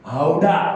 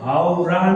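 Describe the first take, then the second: First: The middle consonant is a d-like flap. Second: The middle consonant is a plain r sound. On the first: The speaker calls it right. "એનું pronunciation છે હાવડા" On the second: The speaker calls it wrong. "હાવરા નહીં"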